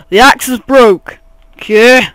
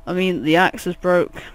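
First: Loud, higher, mock-outraged announcement; loud, insistent yell; exasperated shout. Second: Said in the usual way. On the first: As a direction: shout it as if nobody listened. Repeats the correction, now shouting.

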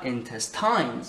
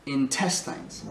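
First: "intestines" wrongly stressed on the last syllable; intes-TINES, last syllable punched; misplaced stress. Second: "intestines" said in-TES-tines; stress on second syllable. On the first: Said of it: "C'est pas intestines". (« intestines » mal accentué sur la dernière syllabe) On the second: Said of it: "c'est la deuxième syllabe qui est accentuée". (« intestines » accentué sur la deuxième syllabe) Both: Shown as a demonstration.

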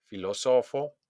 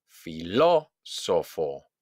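First: "filósofo" with the weight moved to SO; stress on SO. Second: Very slow "Filósofo", punched on LÓ; exaggerated stress on LÓ. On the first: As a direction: lean on SO, not LÓ, in "filósofo". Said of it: "hago un golpe de voz". ("filósofo" acentuado en SO) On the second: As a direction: stretch "Filósofo", hitting LÓ. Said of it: "exagerar la pronunciación". ("Filósofo" muy lento, con golpe en LÓ) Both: Shown as a demonstration.

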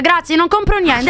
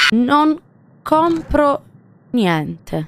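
First: Brisk refusal. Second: "Non", "compro", "niente" each set apart by a pause; word-by-word refusal. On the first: Streamer refusing an unwanted visitor, brisk refusal. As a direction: run the words together, slightly high. Refusal before a broken-up repeat. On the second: Streamer refusing an unwanted visitor, "Non / compro / niente" word by word. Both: Real, not acted.

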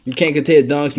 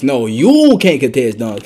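First: Said in the usual way. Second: Drawn-out, emphatic "you"; stress on you. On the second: Real, not acted. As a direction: lean hard and slowly on "you". Turns the line on opponent.

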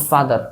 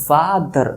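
First: Said in the usual way. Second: father broken in two, a held ফা, then দার; syllable-by-syllable ফা-দার; FATHER split in syllables. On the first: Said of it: "ডাইসিলেবল দেখো". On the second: Shown as a demonstration. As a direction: stop briefly inside father, between ফা and দার. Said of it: "আমার একটু থামতে হচ্ছে".

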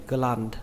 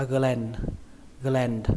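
First: "gland" with an open "a", like "gờ-lan"; said as spelt. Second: "gland" with a flat æ, like "gờ-len". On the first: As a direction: pronounce "gland" just as written, with A. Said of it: "Cách đọc nó y chang cách viết". (đọc "gland" y như cách viết, âm a) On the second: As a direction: say "gland" with the A spread towards E. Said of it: "các bạn đọc âm A bẹt". (đọc "gland" với âm A bẹt) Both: Shown as a demonstration.

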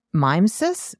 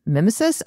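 First: "mimesis" starting like "mime", rising as a question; unsure pronunciation. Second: "Mimesis" starting with a short i, MIM-uh-sis, rising; second-guess pronunciation. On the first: Host guessing at an unknown word, "mimesis" said as MIME-sis. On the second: Host guessing at an unknown word, "Mimesis" said as MIM-uh-sis. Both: Shown as a demonstration. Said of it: "don't even know what that word is".

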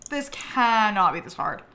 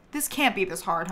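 First: CANNOT split out and punched; exasperated emphasis on "cannot"; stress on CANNOT. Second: Said in the usual way. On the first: Real, not acted. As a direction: lean hard on "cannot". Emphatic repeat of the complaint.

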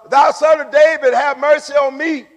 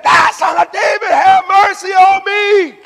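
First: Raised, higher plea; crying out. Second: Crying out the more. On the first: Blind man calls to passing Jesus, crying out. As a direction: call out for mercy with some force. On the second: Blind man defies the crowd, crying out even more. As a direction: belt the plea out at the top of your voice. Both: Acted. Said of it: "he cried out the more".

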